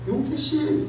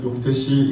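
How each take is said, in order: First: The name is said in a high-pitched voice. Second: The name is said in a low-pitched voice.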